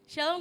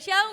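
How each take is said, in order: First: It is said at a normal, softer volume. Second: It is said in a louder voice.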